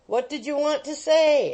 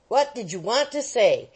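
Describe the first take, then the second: First: Said in the usual way. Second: A firmer, pressing demand. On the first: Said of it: "asked half a dozen voices". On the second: Acted. Wardle shaking the boy for an answer, firm demand. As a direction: press him hard for an answer. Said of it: "demanded Wardle, shaking him".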